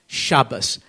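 It is said in the Ashkenazi, non-Israeli way.

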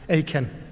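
The name is pronounced in an English style. "I guess that's English rather than Hebrew"

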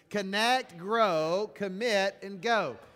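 It is said in an excited, lively way.

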